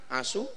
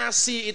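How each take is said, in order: First: The word ends with a u vowel. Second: The word ends with an i vowel. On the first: It is haram. The speaker calls it wrong. "Kalau dibaca marfo" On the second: It is halal. The speaker calls it right. "dibaca majrur"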